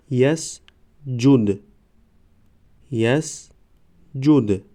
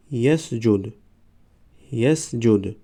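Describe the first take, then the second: First: Slow, syllables held and separated; slow syllable reading. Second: Said in the usual way. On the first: Shown as a demonstration. Teacher models first readings for learners, slow syllable by syllable. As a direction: sound it out for learners, pausing between syllables. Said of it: "بار یکم و دویم آهسته". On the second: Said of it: "به مثل خوانش سوم و چهارم".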